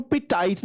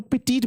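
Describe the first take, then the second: First: ਪੈਟਾਈਟ with second syllable rhyming with "tight"; mispronounced ਪੈਟਾਈਟ. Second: ਪੈਟੀਟ with a long "ee" in the last syllable; correct ਪੈਟੀਟ pronunciation. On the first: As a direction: say ਪੈਟਾਈਟ with a long "eye" vowel in the last syllable. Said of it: "ਇਹਨੂੰ ਪੈਟਾਈਟ ਨਹੀਂ ਬੋਲਣਾ". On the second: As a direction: say ਪੈਟੀਟ ending like "teet". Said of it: "ਇਹਨੂੰ ਪੈਟੀਟ ਬੋਲਣਾ". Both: Shown as a demonstration.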